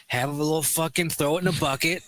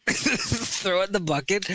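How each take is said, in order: First: Said in the usual way. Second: Slow, laughing through the words; amused slow echo; laughing repeat. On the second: Shown as a demonstration. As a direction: savour the phrase while laughing.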